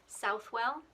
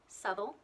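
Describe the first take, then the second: First: Every syllable is said fully and clearly. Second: The word is shortened, its ending reduced. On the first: The speaker calls it wrong. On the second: The speaker calls it right.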